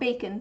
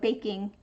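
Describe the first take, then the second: First: The word ends with a plain n sound. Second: The word ends with an ng sound. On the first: The speaker calls it wrong. "Not bacon, saying things like bacon, get things bacon instead of baking" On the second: The speaker calls it right. "but baking"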